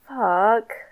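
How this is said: It sounds sad.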